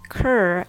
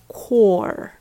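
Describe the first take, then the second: First: The vowel is a short, relaxed 'ur' sound. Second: The vowel is a rounded, open 'or' sound. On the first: The speaker calls it right. "COR is pronounced cur" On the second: The speaker calls it wrong. "and not core"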